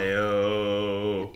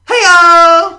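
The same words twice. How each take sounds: First: It is said in his normal voice. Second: It is said in a put-on girly voice.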